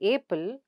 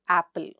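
First: The first vowel sounds like the letter name 'ay'. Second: The first vowel is a short open 'a' sound. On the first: The speaker calls it wrong. "We don't say apple" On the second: The speaker calls it right. "but apple"

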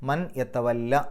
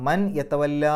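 First: The verb ends in a short vowel. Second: The verb ends in a long vowel. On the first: The speaker calls it right. "മൻ യത്തവല്ല എന്നാണ് പറയുക" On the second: The speaker calls it wrong. "മൻ യത്തവല്ല എന്നല്ല പറയുക"

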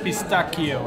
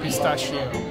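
First: The middle consonant is a hard k sound. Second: The middle consonant is a soft sh sound. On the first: The speaker calls it right. "So it's actually pistachio" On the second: The speaker calls it wrong. "it's not pistachio"

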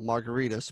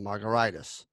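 First: The name sounds like the cocktail margarita. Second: The name ends like an inflammation, '-itis'. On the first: This is how the name is really pronounced. "My last name is pronounced like a cocktail" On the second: This is how the spelling suggests reading it. "but it's spelled more like an inflammation"

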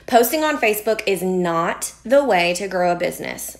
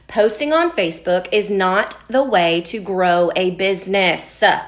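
First: The sentence is said at normal volume. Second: The sentence is said at a louder volume.

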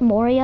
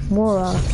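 First: The name is pronounced the English way. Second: The name is pronounced the Russian way. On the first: "that's how you pronounce it in English" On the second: "in Russia, it's actually pronounced Mora"

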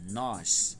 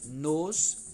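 First: The vowel is open, said with the mouth open. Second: The vowel is closed and said unstressed. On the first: It is the stressed subject pronoun. "lemos de forma mais com a boca aberta" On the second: It is the unstressed object pronoun. "Já o som mais fechado"

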